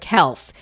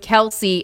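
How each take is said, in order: First: The name is said with one syllable. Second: The name is said with two syllables. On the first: This is the family's original version. The speaker calls it right. "instead of Kels" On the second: This is the common version that replaced the family's own. The speaker calls it wrong. "it just became Kelce instead of Kels"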